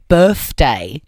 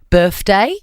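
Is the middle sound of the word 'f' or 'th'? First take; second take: th; f. First: It is said with a 'th' sound. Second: It is said with an 'f' sound.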